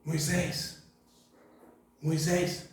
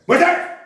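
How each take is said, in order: First: Soft grandmotherly call; softly, like a granny calling; grandma voice. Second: Barked name, much higher and louder; drill sergeant. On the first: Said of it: "será que foi voz de vó". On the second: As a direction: yell it like an army sergeant. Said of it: "voz de sargento do exército". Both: Retold or imitated.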